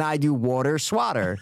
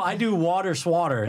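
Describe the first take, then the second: First: WATER with aw, SWATTER with open ah; contrasting vowels. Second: WATER and SWATTER both with aw, waw-ter swaw-ter; slow, deliberate aw in both WATER and SWATTER; matching vowels. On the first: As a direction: say waw-ter, then swah-ter. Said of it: "Yeah, see". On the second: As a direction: slowly rhyme SWATTER with WATER. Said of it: "That's why". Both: Shown as a demonstration.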